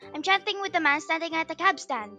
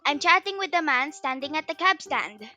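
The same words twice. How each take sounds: First: The sentence is spoken at a very fast speed. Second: The sentence is spoken at a fast speed. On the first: "Faster, faster!"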